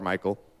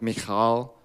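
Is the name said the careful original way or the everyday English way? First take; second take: everyday English; careful original. First: The name is said in a plain English form. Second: The name is said in its careful original form. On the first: The speaker calls it wrong. "I'm just going to call her Michal" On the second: The speaker calls it right. "if we were going to pronounce that correctly, it'd probably be something more like Michal"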